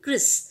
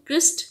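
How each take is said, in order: First: The syllable ends without any t sound. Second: The syllable ends with a clear t sound. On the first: The speaker calls it right. "हम बोलेंगे क्रिस" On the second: The speaker calls it wrong. "इसको हम क्रिस्ट नहीं बोलेंगे"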